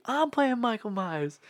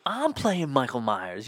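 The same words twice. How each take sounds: First: High, slow hammed-up insistence. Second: Said in the usual way. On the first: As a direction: insist it like an offended diva. [name] insists he is [name].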